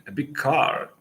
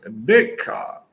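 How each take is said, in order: First: Big lifted higher, car unstressed; stress on big. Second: Car said louder, big left unstressed; stress on car. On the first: Teacher showing learners English intonation, stress on big. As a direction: lean on the word big and let car fall away. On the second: Teacher showing the other English intonation, stress on car. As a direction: push the weight onto car at the end. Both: Shown as a demonstration. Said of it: "Maybe you could adjust the intonation".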